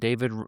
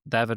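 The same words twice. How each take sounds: First: The name is pronounced the English way. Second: The name is pronounced the Spanish way.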